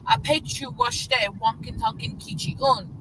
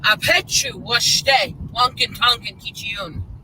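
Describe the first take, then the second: First: It is said softer, with gentler inflection. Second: It is said hard and rigid, fully inflected. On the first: "which is a little softer"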